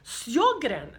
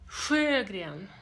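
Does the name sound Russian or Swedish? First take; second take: Russian; Swedish. First: The name is said with Russian-like sounds. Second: The name is said with Swedish sounds. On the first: The speaker calls it wrong. "They say that you should pronounce it like Sjogren's syndrome" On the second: The speaker calls it right. "so that you hear it clearly"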